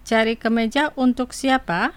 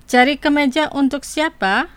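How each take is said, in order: First: Cari kemeja untuk siapa said again evenly at normal height, a gentle rise on untuk; calm repeat. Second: Cari kemeja untuk siapa said slowly with each syllable clear, lifted and a bit louder, rising at the end; slow model phrase. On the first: Host repeats the Indonesian phrase for listeners, calm and even. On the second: Host models Indonesian for radio listeners to repeat, careful and clear. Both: Shown as a demonstration. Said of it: "Digo las palabras dos veces".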